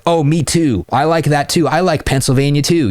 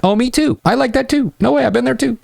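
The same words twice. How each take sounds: First: Higher, lightly needy me-too; mock eager agreeing. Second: Much higher, overeager me-too gushing; hammed-up needy guy. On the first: Coach mocks the needy guy for students, mild eager agreeing. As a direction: fawn over every match she mentions. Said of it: "You don't wanna say that shit". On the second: Coach mocks the needy reply to students, high and overeager. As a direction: gush like a try-hard. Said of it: "rather than being like". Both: Shown as a demonstration.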